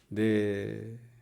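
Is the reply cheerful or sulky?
sulky. It is said sulkily on a low pitch.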